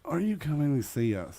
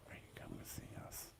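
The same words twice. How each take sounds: First: It is said louder, with more force. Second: It is said at a normal, quieter volume.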